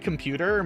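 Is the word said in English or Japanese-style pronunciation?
English. It ends in an English r-colored vowel. Listeners would not understand it. The speaker calls it wrong. "if I were to say computer, most people would be very confused"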